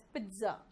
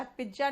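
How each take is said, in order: First: पिज्जा as PIT-za; softer model of पिज्जा with a ts sound; correct pronunciation. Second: पिज्जा as PIJ-ja; wrong pronunciation. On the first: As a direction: say पिज्जा with a t before the z. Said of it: "pronunciation थोड़ा अलग निकलता है". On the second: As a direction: say पिज्जा with a hard j in the middle. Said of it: "पिज्जा नहीं होता". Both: Shown as a demonstration.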